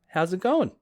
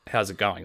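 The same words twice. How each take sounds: First: It sounds like a sincere, interested question. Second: It sounds like a dismissive, throwaway pleasantry.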